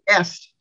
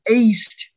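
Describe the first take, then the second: First: The vowel is short. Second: The vowel is long. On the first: It means he, she or it is. "short EST" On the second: It means he, she or it eats. "Long EST, pronounced aced"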